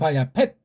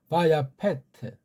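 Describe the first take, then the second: First: The word ends sharply on a final consonant. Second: The word ends with an added vowel after t. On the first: "그 펫 할 때 그 받침 소리 발음이 정확하게 나야 됩니다" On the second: "서양식으로 하면"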